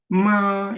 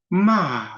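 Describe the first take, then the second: First: The pitch stays high and steady throughout. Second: The pitch drops sharply from high to low. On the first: "일성은 이제 솔 정도를 기준으로 해서 마 이렇게 이제 높이 쭉 올라가는 거죠" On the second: "사성은 마, 이렇게 위에서 이제 비행기가 쭉 내려오는 것처럼 쫙 떨어지는 소리"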